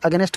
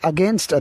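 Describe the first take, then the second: First: An extra vowel splits the ending into 'nest'. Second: The word ends with a tight 'nst' cluster. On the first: The speaker calls it wrong. "అగెనెస్ట్ కాదు" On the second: The speaker calls it right. "So ఎన్ఎస్టీ ఉంది"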